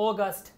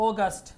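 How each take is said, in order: Both takes have the same delivery.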